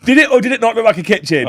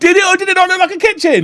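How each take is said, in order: First: Raised, pressing question with weight on it; teasing demand. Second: Much higher and louder, hammering it; insistent repeat. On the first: Co-host pressing the other to answer, raised and teasing. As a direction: push him for an answer. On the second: Co-host repeating the question, higher, louder and insistent. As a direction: demand the answer again, pushier. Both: Real, not acted.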